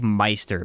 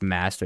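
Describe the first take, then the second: First: The first vowel sounds like 'my'. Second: The first vowel sounds like 'ma'. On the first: The speaker calls it wrong. "It's like Meister, but it's not" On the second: The speaker calls it right. "It's Master"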